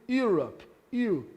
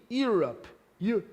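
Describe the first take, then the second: The two takes are said the same way.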